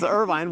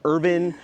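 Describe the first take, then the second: First: The last syllable is a long 'vine'. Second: The last syllable is a short 'vin'. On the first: The speaker calls it right. "no, it's Irvine" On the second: The speaker calls it wrong. "they would pronounce it wrong"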